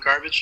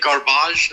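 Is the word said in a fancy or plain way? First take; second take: plain; fancy. First: It is said with a plain English ending. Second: It is said with a fancy, French-sounding ending. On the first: This is the ordinary way of saying it. "instead of garbage" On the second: This is the sophisticated way of saying it. "What do you say, garbage instead of"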